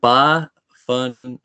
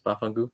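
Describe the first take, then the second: First: BAFANGU very slow, syllable by syllable; "Bafangu" stretched into separate syllables; teaching demo. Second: Said in the usual way. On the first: Shown as a demonstration. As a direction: draw out "Bafangu" slowly for a learner. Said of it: "I could teach you a word". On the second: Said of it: "Do you know what that means".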